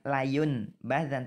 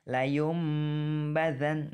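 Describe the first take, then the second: First: A clear n sound comes before the b. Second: An m sound comes before the b. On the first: The speaker calls it wrong. "bukan layun badan" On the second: The speaker calls it right. "tapi layum badan"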